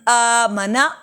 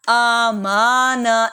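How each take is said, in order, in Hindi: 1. बीच का स्वर छोटा है। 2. बीच का स्वर लंबा खींचा गया है।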